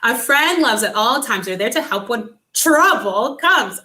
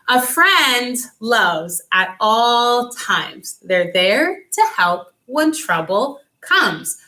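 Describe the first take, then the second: First: It is said very fast. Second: It is said slowly.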